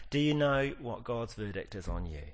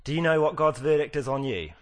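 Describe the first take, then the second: First: Said in the usual way. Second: Louder, higher, stressing "know"; pointed question. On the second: Shown as a demonstration. Preacher confronting the congregation, loud and pointed. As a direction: fire the question "Do you know" at the hearers. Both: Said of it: "I asked her this yesterday".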